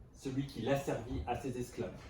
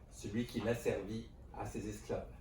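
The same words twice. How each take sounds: The two takes are said the same way.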